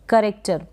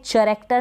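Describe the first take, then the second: First: The word begins with a 'k' sound. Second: The word begins with a 'ch' sound. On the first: The speaker calls it right. "इसको आप करेक्टर पढ़ेंगे" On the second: The speaker calls it wrong. "नहीं पढ़ेंगे इसको"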